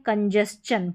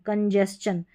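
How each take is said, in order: No difference in how they are said.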